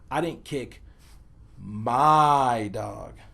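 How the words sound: The word my carries the emphasis. A different dog was kicked. "place the emphasis on the word my"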